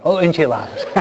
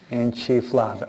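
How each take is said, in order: First: Corrects enchiladas with a laugh; laughing at own slip, saying enchiladas; laughing at self. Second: Enchifladas said with an extra f, quietly; wrong word. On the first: Real, not acted. A sheepish laugh while correcting enchiladas. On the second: Shown as a demonstration. Priest misnames the dish, Enchifladas, softly. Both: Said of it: "Siempre lo digo mal".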